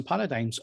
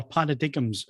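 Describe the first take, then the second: First: Said in the usual way. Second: Paradigms said as "para-dig-ums"; alternative pronunciation. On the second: Shown as a demonstration. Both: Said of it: "as some people call them".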